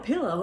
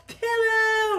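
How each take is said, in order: First: Said in the usual way. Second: Very high, loud squealed pillow; mock exultant shout. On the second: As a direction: cry out PILLOW in exaggerated delight. Same word repeated as shout.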